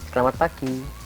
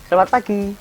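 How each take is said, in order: First: It is said in a firm, clear voice. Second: It is shouted.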